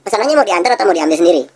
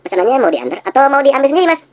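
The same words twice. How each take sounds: First: Friendly shop clerk offering a choice, higher; seller's question. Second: "sendiri" lifted high at the end, pitch much higher; rising tune on sendiri. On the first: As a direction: ask the customer lightly. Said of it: "contohnya kayak begini". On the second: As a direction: push the last option "diambil sendiri" up. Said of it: "intonasinya diting-, ditingkatkan". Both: Shown as a demonstration.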